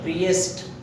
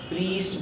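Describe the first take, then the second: First: The i and e vowels are sounded separately. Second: The vowel is one long ee sound. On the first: "प्रीएस्ट में आपका क्या होगा कि आई ई दोनों का साउंड आ जाएगा" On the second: "प्रीस्ट बोलते हैं लोग"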